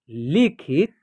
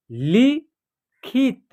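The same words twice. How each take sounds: First: Said in the usual way. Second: लिखित drawn out, syllables apart; slow syllable by syllable. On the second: Shown as a demonstration. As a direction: read लिखित slowly in parts. (लिखित धीरे-धीरे टुकड़ों में) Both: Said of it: "या आप direct भी पढ़ सकते हैं".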